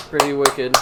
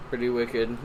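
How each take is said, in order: First: "Pretty wicked" in a light Boston accent. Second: Said in the usual way. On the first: Shown as a demonstration. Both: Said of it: "Wicked accent".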